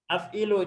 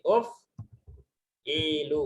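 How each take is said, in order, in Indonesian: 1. Kata ini diawali dengan vokal 'a'. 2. Kata ini diawali dengan vokal 'u'. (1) "cuma huruf mudharanya yang salah barisnya" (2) "yang benar adalah barisnya dom"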